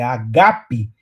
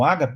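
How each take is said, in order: First: The stress is on the second syllable. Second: The stress is on the first syllable. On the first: This is the original Greek pronunciation. "no grego é uma palavra paroxítona" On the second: This is the familiar Portuguese pronunciation. "eu sei que você conhece o termo como ágape"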